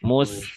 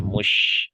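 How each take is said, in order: First: The consonant is a plain s sound. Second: The consonant is a spread sh sound. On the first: The speaker calls it wrong. "mus berarti sin" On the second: The speaker calls it right. "anginnya nyebarnya kedengeran jelas tuh"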